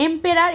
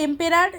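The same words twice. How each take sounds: The two takes are said the same way.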